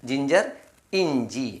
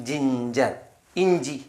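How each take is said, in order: Both takes have the same delivery.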